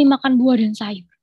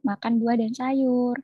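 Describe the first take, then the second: First: It is said in an alarmed, warning tone. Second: It is said in a calm, friendly tone. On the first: It sounds like a danger warning. The speaker calls it wrong. "Kalau misalnya bisa disuarakan tuh kayak gitu" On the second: It sounds like friendly healthy advice. The speaker calls it right. "Pengennya kan"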